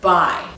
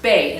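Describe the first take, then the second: First: The word sounds like the start of bilingual. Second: The word sounds like bay. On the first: The speaker calls it wrong. "I thought it was pronounced bi. Like, bilingual and bisexual" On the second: The speaker calls it right. "I guess it's pronounced bae"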